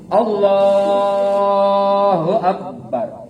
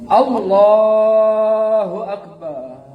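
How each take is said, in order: First: The final syllable bar is cut short. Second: The final syllable bar is drawn out long. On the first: It sounds healthy and sound. The speaker calls it right. "Tuh, sehat" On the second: It sounds like someone who is heartbroken. The speaker calls it wrong. "Itu lagi sakit hati"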